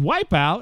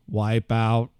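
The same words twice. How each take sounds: First: It is said in a natural voice. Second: It is said in a robotic voice.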